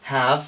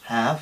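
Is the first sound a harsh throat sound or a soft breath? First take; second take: soft breath; soft breath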